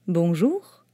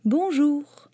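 First: Merchant voice. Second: Put-on a high, childlike "Bonjour"; the little prince greeting the switchman, high and childlike. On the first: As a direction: greet like a salesman. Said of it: "dit le marchand". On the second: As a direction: greet like a small boy. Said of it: "dit le petit prince". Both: A narrator's reading.

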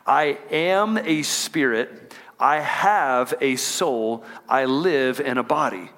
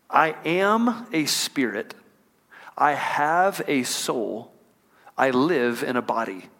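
First: Slow, deliberate, leading the room; congregation call-and-repeat. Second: Slow, deliberate, each phrase weighed; slow measured creed. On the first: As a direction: lead the church through it slowly. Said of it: "I want y'all to say that with me". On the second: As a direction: lay out each line slowly like a creed. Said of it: "I had a mentor that would say it like this". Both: Shown as a demonstration.

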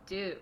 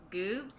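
First: "Doobs" said firmly with a D, falling; "Doobs" insisted on with D, flat end; correcting name. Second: "Goobs" said with a hard G, rising like a question; unsure "Goobs?" with a G sound; "Goobs" with G instead of D, asked; wrong name. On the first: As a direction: correct "Doobs" with a clear D sound. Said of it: "No, Doobs". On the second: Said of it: "I thought his name was Goobs". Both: Retold or imitated.

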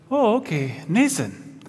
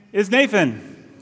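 First: Mock Danish teacher, "Nathan" said with an s for th; badly faked Danish accent, saying "Nathan" as NAY-sun. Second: Said in the usual way. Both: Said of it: "that was not a good Denmark accent".

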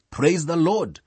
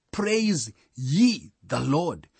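First: Said in the usual way. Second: "ye" set apart and drawn out slowly; slow and measured, lean on the word "ye"; stress on YE. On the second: Shown as a demonstration. Preacher showing who must praise, stress on "ye". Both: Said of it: "The emphasis coming on ye".

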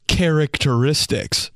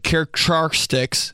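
First: "characteristics" said slowly and clearly, every syllable kah-rak-tuh-RIS-tiks; careful correct pronunciation. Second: "Characteristics" fumbled as kʰerak-trar-kstiks, syllables garbled; mispronounced word. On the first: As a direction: spell out "characteristics" properly, slow and smug. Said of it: "The real word is". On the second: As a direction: stumble through "Characteristics" like a weak reader. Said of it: "I mess up a word when I'm reading". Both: Shown as a demonstration.

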